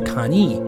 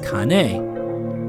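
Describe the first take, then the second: First: The final vowel is shortened. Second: The final vowel is said fully. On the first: "but shortened almost to kani" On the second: "is kane"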